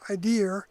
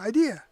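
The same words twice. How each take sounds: First: It is said in a New York accent. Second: It is said in a neutral accent. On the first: The speaker calls it wrong. "so that I wouldn't say idea" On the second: The speaker calls it right. "I would say idea"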